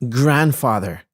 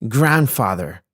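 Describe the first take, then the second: The two takes are said the same way.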